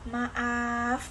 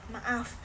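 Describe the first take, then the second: First: The vowel is stretched out and held long. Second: The vowel is short and quickly said. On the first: It is a sincere, regretful or dramatic apology. "ucapan penuh penyesalan" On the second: It is an ordinary apology. "ucapan biasa"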